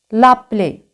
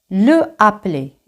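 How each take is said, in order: First: The first vowel is dropped and joined. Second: Both vowels are pronounced separately. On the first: The speaker calls it right. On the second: The speaker calls it wrong.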